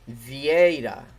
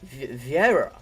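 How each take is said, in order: First: The name is said with its native pronunciation. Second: The name is said with an English pronunciation. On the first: The speaker calls it right. "but it's Vieira" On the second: The speaker calls it wrong. "I try to say it in English, and it just doesn't sound very good in English"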